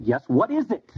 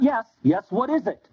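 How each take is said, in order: First: Said in the usual way. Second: Impatient brush-off. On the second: Shown as a demonstration. Rabbi brushing off the woman's question, impatient.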